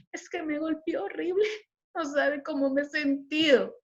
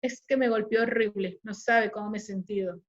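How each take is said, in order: First: High-pitched, half-giggled telling; laughing account. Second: Downcast account. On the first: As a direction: recount it lightly, laughing it off. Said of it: "no es lo que te dice, sino cómo te dice". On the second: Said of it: "a que una mujer te lo diga". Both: Shown as a demonstration.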